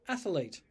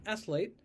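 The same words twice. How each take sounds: First: An extra vowel is inserted in the middle. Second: It is said with two syllables. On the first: "will say athlete" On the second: "instead of saying athlete"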